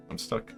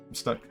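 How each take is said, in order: Both takes have the same delivery.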